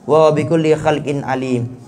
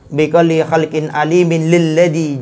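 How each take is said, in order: First: The phrase stops cleanly after the final word. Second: The final word links with a nun into the next. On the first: "bisa difasl, artinya diputus" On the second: "boleh langsung di wasl, langsung dibaca"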